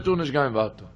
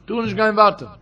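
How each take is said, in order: First: Said low and soft, trailing off. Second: Tu nicht gehen weiter said again with more push; firm repeat. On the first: Preacher first says the warning softly, then quietly. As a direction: let it sink down quietly. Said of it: "repeated line, soft first". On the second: Preacher repeats the warning to his listeners, firmly. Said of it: "repeated line, firmer". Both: Shown as a demonstration.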